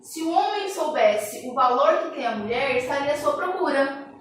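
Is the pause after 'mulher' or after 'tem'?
after mulher. The pause comes after 'mulher'.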